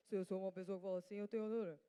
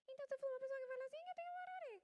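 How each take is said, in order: First: Deep, fast put-on voice; low monotone demo voice; low-pitched voice. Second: Very high, squeaky put-on voice; fast, sustained high monotone; high-pitched voice. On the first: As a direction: drop the pitch and rattle it off. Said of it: "o ser grave". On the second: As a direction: talk rapidly way up in falsetto. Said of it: "o ser grave, o ser, é, agudo". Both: Shown as a demonstration.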